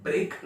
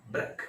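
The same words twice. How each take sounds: First: ब्रेक with long ay, brayk; wrong vowel. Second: ब्रेक as a short brek; correct vowel. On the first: Teacher showing what it is not, long-vowel mispronunciation. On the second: Teacher correcting the first syllable, short-vowel demonstration. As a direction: cut ब्रेक short with an e as in neck. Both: Shown as a demonstration. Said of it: "ब्रेक नहीं होता है".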